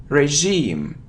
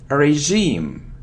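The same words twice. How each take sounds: Both takes have the same delivery.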